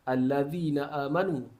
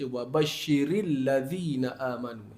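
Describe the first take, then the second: First: The opening vowel sound is clearly pronounced. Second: The opening vowel is dropped and joined to the previous word. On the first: The reading starts fresh after a stop. "Hamzah wasal tu kalau kita berhenti, kita baca allazina" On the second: The reading continues from the previous word. "bila kita sambung ... Hilang hamzah tu"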